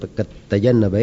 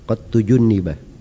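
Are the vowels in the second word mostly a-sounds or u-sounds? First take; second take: a-sounds; u-sounds. First: The verb is voiced with a, a, a vowels. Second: The verb is voiced with u, u, i vowels. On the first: The speaker calls it wrong. "itu bukan qattajannaba ya" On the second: The speaker calls it right. "harusnya dibaca qattujunniba"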